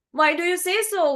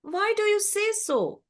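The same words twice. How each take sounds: First: High, quick challenge; questioning swan. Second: High-pitched, unhurried puzzlement; puzzled crow. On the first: Swan answers the admiring crow, quick high questioning. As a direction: ask back briskly in a high voice. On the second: Crow asks the unhappy swan, puzzled and high. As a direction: ask in high, mild bewilderment. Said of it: "Now the crow is puzzled". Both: A narrator's reading.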